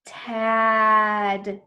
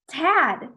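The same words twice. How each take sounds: First: Really long sounds. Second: Said in the usual way. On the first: Shown as a demonstration. Teacher shows how to blend, Tad really long. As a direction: stretch out Tad loudly. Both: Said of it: "I said the sounds really long".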